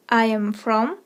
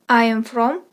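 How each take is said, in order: Both takes have the same delivery.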